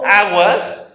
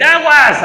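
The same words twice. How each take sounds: First: "aguas" a bit higher and louder, rising; raised rising "aguas" warning. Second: High, loud shout of "¡Aguas!"; full alarmed shout of "¡Aguas!"; urgent shout. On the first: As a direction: call "aguas" as a lighter alert. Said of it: "con un cierto tono". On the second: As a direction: yell "¡Aguas!" as a danger warning. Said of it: "tienes que decir". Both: Shown as a demonstration.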